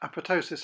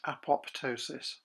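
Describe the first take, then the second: First: The second p sound is silent. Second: The second p sound is pronounced. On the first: The speaker calls it right. "pronounced apoptosis" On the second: The speaker calls it wrong. "and not apoptosis"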